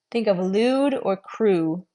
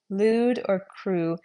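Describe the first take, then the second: First: "lewd" and "crew" slow with a long oo; teacher sounding out examples; slow model words. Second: "Lewd" and "crew" again, slow, falling oo; echoing the examples calmly; repeated model words. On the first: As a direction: stretch each word to show the oo. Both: Shown as a demonstration.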